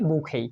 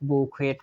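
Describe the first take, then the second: First: It is said smoothly with no final t. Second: It is said part by part with a final t. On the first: This is how the word is actually pronounced. "এখানে ই এবং টি এর উচ্চারণ হবে না" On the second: This form helps to remember the spelling. "স্পেলিং বানানটা মাথায় রাখবো তখন আমরা উচ্চারণ করব বউ, তারপর খুয়েট"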